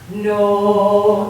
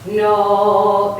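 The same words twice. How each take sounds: First: The word is said in a lighter, non-chest voice. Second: The word is said in a low chest voice. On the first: "that's not chest" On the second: "this is chest"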